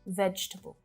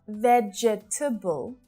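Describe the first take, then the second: First: The word is said with three syllables. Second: The word is said with four syllables. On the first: The speaker calls it right. "just three syllables" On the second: The speaker calls it wrong. "Not vegetable"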